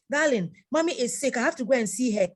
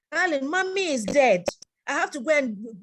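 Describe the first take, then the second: First: Pleading wife. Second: Higher, louder mock plea from the wife; pleading wife. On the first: Retold or imitated. Wife pleading in acted dialogue. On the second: Wife begs husband to visit her dead mother, pleading mock voice. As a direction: voice the wife begging to go, a bit higher.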